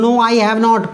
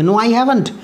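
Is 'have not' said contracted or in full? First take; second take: full; contracted. First: Have and not are said as two full words. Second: Have and not are joined into one contracted word. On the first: The speaker calls it wrong. "कभी पूरी form नहीं बोलते, no आई हैव नॉट, पूरा ऐसे नहीं बोलेंगे" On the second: The speaker calls it right. "शॉर्ट form ही बोलेंगे"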